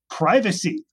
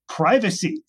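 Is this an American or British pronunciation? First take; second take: American; American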